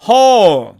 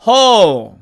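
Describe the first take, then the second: Both takes have the same delivery.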